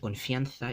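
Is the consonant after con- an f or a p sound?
f. The consonant after con- is an f sound. This is the standard Spanish form.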